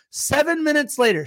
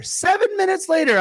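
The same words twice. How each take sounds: First: Said in the usual way. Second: Much higher emphatic repeat. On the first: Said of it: "repeated louder". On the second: Shown as a demonstration. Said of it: "repeated for emphasis".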